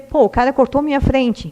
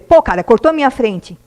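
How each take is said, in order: First: It is said in a calm, neutral tone. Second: It is said in an angry, emotional tone. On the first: The annoyance is noted without passing on negative energy. The speaker calls it right. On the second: Negative emotion is thrown at others. The speaker calls it wrong.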